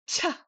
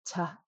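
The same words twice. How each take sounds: First: The syllable is said with a high pitch. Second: The syllable is said with a low pitch. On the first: "high tone and way too hard" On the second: "our low tone and just right"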